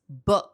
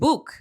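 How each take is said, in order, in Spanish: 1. La vocal es un sonido corto y relajado. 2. La vocal es un sonido largo oo. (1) "un sonido más corto y quizá más relajado" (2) "No es book"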